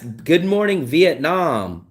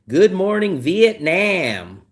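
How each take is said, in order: First: Vietnam is said with the newer pronunciation. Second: Vietnam is said with the older American pronunciation. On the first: The speaker calls it right. "it's good morning Vietnam" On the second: The speaker calls it wrong. "older Americans will say good morning Vietnam, and it's not Nam"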